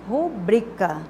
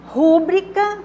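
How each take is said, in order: First: The stress is on the second syllable. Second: The stress is on the first syllable. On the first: The speaker calls it right. "a sílaba tônica é a penúltima" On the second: The speaker calls it wrong. "não é uma palavra proparoxítona"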